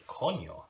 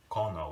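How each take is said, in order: First: "coño" with an n-y sound, "kon-yo". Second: "cono" with a simple n, no y sound; plain n in cono. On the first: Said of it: "how one N E A can". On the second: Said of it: "two different meanings". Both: Shown as a demonstration.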